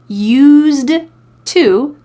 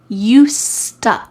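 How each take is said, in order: First: The two words are said separately and fully. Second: The words run together with a T sound.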